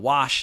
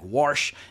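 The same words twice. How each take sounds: First: It is said in a plain, standard accent. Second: It is said in a thick Texas accent. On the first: "instead of wash" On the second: "He would say things like wash"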